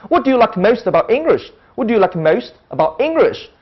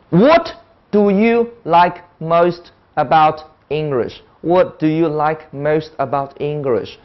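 First: "What do you like most about English" flowing, with ENGLISH punched; native-like sentence stress. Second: Every word of "What do you like most about English" equally level and slow; slow word-by-word monotone, no word in "What do you like most about English" emphasised; flat, unstressed. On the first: Teacher shows how foreigners say it, stressing ENGLISH. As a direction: lively pitch swings, leaning on ENGLISH. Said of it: "它有重音". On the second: Teacher mimics Chinese learners' English, every word evenly flat. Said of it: "每个字都发的一样平". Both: Shown as a demonstration.

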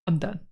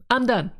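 First: Said in the usual way. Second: Higher and louder, fed up; exasperated louder outburst. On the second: Real, not acted. A fed-up player snapping at a game's leader, louder and higher. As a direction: burst out with it, done with the gang's leader.

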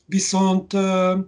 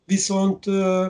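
Both takes have the same delivery.

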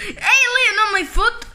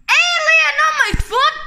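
First: Said in the usual way. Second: High, loud laughing cry; laughing shout. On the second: Pretend. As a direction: yell it out while laughing. Kids panicking over toy alien.

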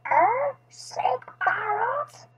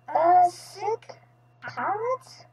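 First: High, slow parrot mimicry; squawky parrot repeating a question; parrot echo. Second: Said in the usual way. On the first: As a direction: echo it like a croaky pet parrot. Parrot seems to echo the vet.

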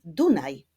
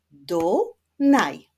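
First: Said in the usual way. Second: "Dunaj" in two loud, separated syllables; split into syllables. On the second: Shown as a demonstration. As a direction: clap out "Dunaj" beat by beat. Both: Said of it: "Wyklaszczmy sylaby w nazwie".

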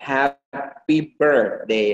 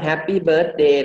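First: "happy birthday" slow, with r-coloured BIRTH; slow HAP-py BIRRTH-day; correct happy birthday. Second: "happy birthday" in a Thai accent, no r; Thai-accented bird-day; too-Thai accent. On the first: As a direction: separate the beats of "happy birthday", sounding the ir. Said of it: "อย่างเช่นเวลาเราพูดว่า". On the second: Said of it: "มันสำเนียงไทยเกินไป". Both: Shown as a demonstration.

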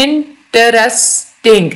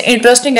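First: "interesting" slowly, a gap after each syllable; split into syllables. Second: Said in the usual way. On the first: Shown as a demonstration. Teacher explaining long words, "interesting" in separated syllables. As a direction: sound out "interesting" as इन, टरेस, टिंग. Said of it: "इसमें आप देखें ये तीन". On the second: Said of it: "तीन या तीन से ज्यादा सिलेबल्स".

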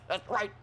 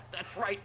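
No difference in how they are said.

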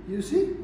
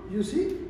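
Both takes have the same delivery.

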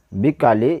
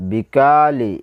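First: বিকালি with all three vowels kept short; no stretch on কা in বিকালি, read it brief. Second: বিকালি with কা drawn out long; elongated middle vowel. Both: Shown as a demonstration. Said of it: "বাকি লা টান হবে না".

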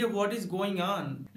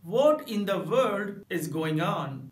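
First: Said in the usual way. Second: Very slow "What in the world is going on?", stress on "What"; emphatic. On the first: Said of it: "normal तरीके से कहेंगे". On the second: Shown as a demonstration. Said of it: "इस sentence के लिए आप कहेंगे". ("What in the world is going on?" धीरे, ज़ोर देकर)

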